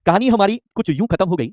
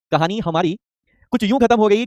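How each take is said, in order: First: Slow, falling first line of a couplet; slow shayari recitation. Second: The line again, rising on खत्म at the end; repeated shayari line. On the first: Teacher reciting a shayari to the online class, slow and soulful. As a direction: recite it slowly, like a poet opening his verse. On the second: Teacher repeating his shayari line to the class, rising on खत्म. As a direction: repeat the line and lift खत्म, building suspense. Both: Shown as a demonstration. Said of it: "एक शायरी हो जाए".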